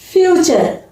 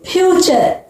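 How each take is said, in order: Both takes have the same delivery.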